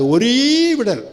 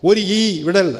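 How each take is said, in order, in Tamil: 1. முதல் சொல் ஒரு நீண்ட, இழுத்த உயிரெழுத்தில் முடிகிறது. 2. முதல் சொல் இரண்டு சிறிய பகுதிகளாகப் பிரிகிறது. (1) "நல்லா நீட்டி முழக்கணும்" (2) "ஒரு ஈ விடல் அப்படின்னு வாசிக்க கூடாது"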